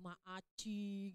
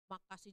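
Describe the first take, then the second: First: The word is lisped childishly. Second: The word is said clearly.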